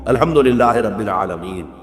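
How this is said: It is recited slowly with pauses between phrases.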